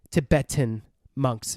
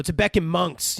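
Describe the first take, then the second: First: "Tibetan" with a clear t, tuh-BET-un; careful, slowed tuh-BET-un for "Tibetan"; corrected pronunciation. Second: "Tibetan" said with a k, like tuh-BECK-in; mispronounced Tibetan. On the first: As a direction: slowly say "Tibetan" with t, no k. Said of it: "the name of the country is Tibet". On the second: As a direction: put a k in place of the second t in "Tibetan". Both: Real, not acted.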